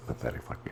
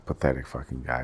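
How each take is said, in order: First: Whispered insult trailing off. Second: Said in the usual way. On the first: Real, not acted. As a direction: drop to a whisper on pathetic fucking. Hiding who he means. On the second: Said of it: "I'm not gonna say his name".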